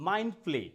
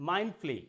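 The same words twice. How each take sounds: The two takes are said the same way.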